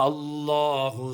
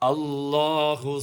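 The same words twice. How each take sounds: Both takes have the same delivery.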